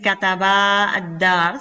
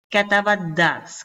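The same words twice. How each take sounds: First: The final vowel of kataba is held long. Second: The final vowel of kataba is cut short. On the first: The speaker calls it wrong. "No voy a decir" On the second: The speaker calls it right. "como si esta alif desapareciera y simplemente quedara la fatha"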